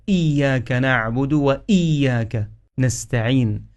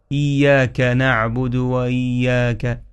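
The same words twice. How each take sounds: First: Each إياك starting on a firm glottal stop; hamza pronounced clearly. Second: إياك with its opening glottal stop softened; mistaken slack hamza. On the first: Teacher correcting the mistake, إياك with crisp hamza. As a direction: slowly articulate the hamza in إياك. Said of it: "حقق الهمزة". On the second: Teacher showing a common mistake, إياك with weak hamza. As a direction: slide into إياك without a firm hamza. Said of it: "البعض يقرأ". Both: Shown as a demonstration.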